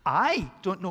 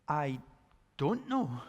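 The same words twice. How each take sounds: First: The stress falls on the word I. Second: The stress falls on the word don't. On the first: Someone else knows the answer. "My wife knows" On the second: Contrary to expectation, the speaker lacks the answer. "You would think I should know, but I don't know"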